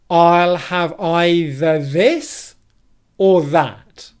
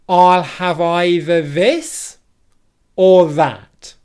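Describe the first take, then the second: No difference in how they are said.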